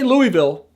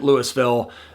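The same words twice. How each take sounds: First: It is said the way the Kentucky city is said. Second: It is said the way Colorado locals say it. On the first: It names the city in Kentucky. "We still say Louisville for Kentucky" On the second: It names the town in Colorado. "in Colorado, we pronounce it Louisville"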